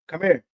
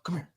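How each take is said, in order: First: It is said in a harsh, stern tone. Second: It is said in a gentle, nice tone.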